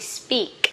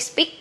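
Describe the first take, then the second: First: The vowel is long. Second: The vowel is short. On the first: The speaker calls it right. "Long E, speak" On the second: The speaker calls it wrong. "Don't say speak"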